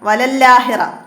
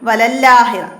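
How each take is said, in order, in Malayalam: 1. ഇരട്ട l നേരിട്ട് akhira-യിലേക്ക് ചേരുന്നു. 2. ഇരട്ട l നേരിട്ട് akhira-യിലേക്ക് ചേരുന്നു.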